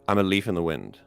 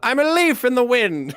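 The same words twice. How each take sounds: First: It is said in a normal, plain voice. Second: It is said loudly with a raised pitch.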